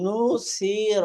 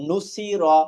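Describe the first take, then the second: First: The vowels are drawn out and lengthened. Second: The vowels are kept short and clipped. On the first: The speaker calls it wrong. "তিনটা একটু টান দিয়ে টান দিয়ে পড়লাম। এই নু সি র এরকম টান দেওয়া যাবে না" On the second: The speaker calls it right. "পড়তে হবে"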